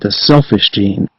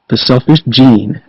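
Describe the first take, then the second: First: The stress falls on the word selfish. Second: The stress falls on the word gene. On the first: It is about a gene that causes selfishness. The speaker calls it wrong. "suggests that the book might be about a gene in humans that causes selfishness" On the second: The genes themselves are what matters, not the organisms. The speaker calls it right. "The former pronunciation better reflects one of the main messages of the book"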